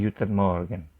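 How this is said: The g sounds are said as y, Berlin-style.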